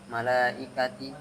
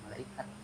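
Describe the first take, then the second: First: The word ends in a t with an i vowel. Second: The word ends in a silent-vowel h sound. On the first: The reading continues past this word. "kalau dibaca lagi, nah baru dia jadi dibacanya ti" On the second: The reading stops at this word. "Tak marbutah jadi hak sukun. Kalau di akhir"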